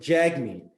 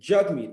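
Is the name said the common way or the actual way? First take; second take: common; actual. First: The name is said the commonly heard way. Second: The name is said its actual way. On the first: This is how many people say the name. The speaker calls it wrong. "they pronounce it Jagmeet" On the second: This is how the name really sounds. The speaker calls it right. "but it's actually"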